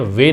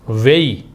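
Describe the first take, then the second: First: The vowel stays a plain 'e' sound. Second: The vowel glides from 'e' into 'ee'. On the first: The speaker calls it wrong. "वे नहीं पढ़ते" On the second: The speaker calls it right. "इसको वेई पढ़ते हैं"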